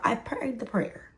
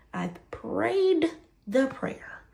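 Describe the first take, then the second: First: Said in the usual way. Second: Slow, high, drawn-out stress on prayed; emphatic repeat. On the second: Shown as a demonstration. Insisting to viewers she prayed, slow and emphatic.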